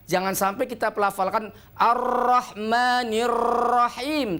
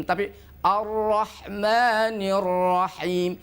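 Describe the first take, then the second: First: "Ar-Rahmanir Rahim" with breathy r; airy Ar-Rahmanir Rahim. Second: Slow "Ar-Rahmanir Rahim", breath held. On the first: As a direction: let air escape on the r's. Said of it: "udara banyak keluar". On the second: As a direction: draw out "Ar-Rahmanir Rahim" with no air. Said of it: "Tidak keluar udaranya". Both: Shown as a demonstration.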